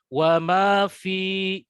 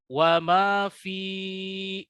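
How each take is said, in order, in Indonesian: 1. Tidak ada vokal yang dipanjangkan terlalu lama. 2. Vokal pada 'fi' dipanjangkan. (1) "cukup ya, panjangnya ayunannya diperhatikan" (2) "yang salah adalah wa ma fi, itu salah"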